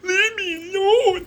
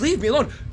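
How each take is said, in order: First: It is said in a mocking, imitating voice. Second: It is said sincerely, as a real plea.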